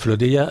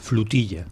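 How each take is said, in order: First: It is said with a plain Spanish o sound. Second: It is said Catalan-style with a u sound.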